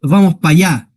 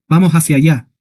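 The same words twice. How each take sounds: First: "Vamos pa' allá" with "para" clipped to pa', Andalusian style; casual Andalusian "Vamos pa' allá", swallowing letters; Andalusian colloquial contraction. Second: Said in the usual way. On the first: Shown as a demonstration. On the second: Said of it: "Que es lo correcto".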